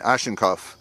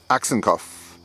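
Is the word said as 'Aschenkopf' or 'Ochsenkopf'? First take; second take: Aschenkopf; Ochsenkopf. First: The word is said as Aschenkopf. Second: The word is said as Ochsenkopf. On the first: The speaker calls it wrong. "I've been saying Aschenkopf" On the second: The speaker calls it right. "nope, Ochsenkopf"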